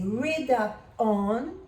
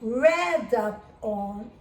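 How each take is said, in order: First: The first vowel is long, like 'reed'. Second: The first vowel is short, like 'red'. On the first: The action happens now. "read up on in the present" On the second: The action happened before. "read up on in the past"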